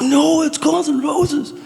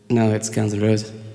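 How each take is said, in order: First: It is yelled loudly and angrily. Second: It is said calmly and quietly.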